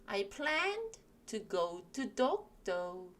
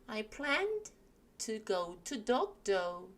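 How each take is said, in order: Both takes have the same delivery.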